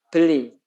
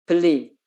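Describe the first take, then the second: The two takes are said the same way.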